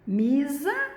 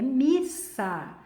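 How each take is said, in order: First: The middle consonant is a buzzing Z sound. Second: The middle consonant is a hissing S sound. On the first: The speaker calls it wrong. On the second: The speaker calls it right.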